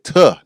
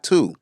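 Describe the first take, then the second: First: The vowel is a short, weak uh sound. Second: The vowel is a full, long oo sound. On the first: The speaker calls it right. "I said tuh" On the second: The speaker calls it wrong. "not to"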